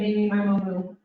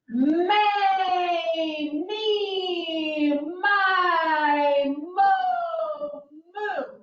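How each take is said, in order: First: It is said weakly, without projection. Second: It is said loudly, projected far.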